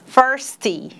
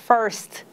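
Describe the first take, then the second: First: The word ends with an extra bursting 'ee' vowel. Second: The word ends softly with no added vowel. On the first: The speaker calls it wrong. "aquele I que explode" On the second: The speaker calls it right. "Esse é um som mais abafado um pouco"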